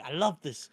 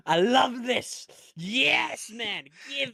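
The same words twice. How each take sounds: First: Said in the usual way. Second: Drawn-out high delight; gleeful. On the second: Real, not acted. Host relishing the storyline, high drawn-out delight. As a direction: stretch it out, thrilled.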